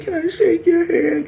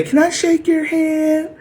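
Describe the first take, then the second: First: High simpering whine; mock crying plea. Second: High, slow mock plea; mock pleading. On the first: Mocking the crying enemy begging for a handshake, high whine. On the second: Mocking the enemy's pleading handshake request, high and simpering.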